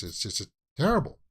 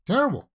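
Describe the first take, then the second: First: Said in the usual way. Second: "terrible" flung out much higher and louder, falling; exasperated emphasis. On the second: Real, not acted. Vlogger dismayed at the crew drug bust, exasperated cry.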